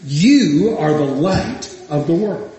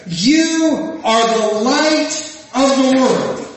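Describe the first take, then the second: First: Said in the usual way. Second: "You are the light of the world" drawn out slowly and raised, "You" held long; preacher intoning "You are the light of the world" slowly, weight on "You"; slow proclamation. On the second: Acted. Jesus' words quoted in sermon.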